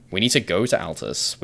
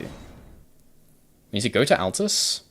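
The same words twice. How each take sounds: First: Said in the usual way. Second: Slow, higher, stretched-out singsong; drawn-out sing-song. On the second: Shown as a demonstration. Streamer repeats the plan to himself in a slow, higher singsong. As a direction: stretch every word out lazily, a little higher.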